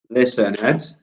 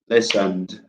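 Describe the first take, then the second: First: The ending is said as an extra syllable. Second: The ending adds no extra syllable. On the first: The speaker calls it wrong. "Is it listened" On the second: The speaker calls it right. "It's the second one"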